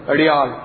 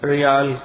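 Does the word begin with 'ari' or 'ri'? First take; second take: ari; ri. First: The word begins with an added vowel before r. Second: The word begins directly with the r sound.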